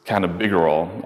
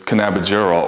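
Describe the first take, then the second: First: Cannabigerol with a hard g, as in "big"; alternative pronunciation. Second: Cannabigerol with a soft g, like "jer"; soft-g pronunciation. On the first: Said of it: "some people pronounce this as cannabigerol". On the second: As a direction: say cannabigerol with a j sound for the g. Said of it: "some people pronounce this as". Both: Shown as a demonstration.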